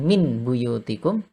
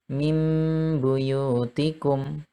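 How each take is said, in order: First: The sound before b is a plain n. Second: The sound before b is a nasal m. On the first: The speaker calls it wrong. "bukan min buyutikum" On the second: The speaker calls it right. "tapi mim buyutikum"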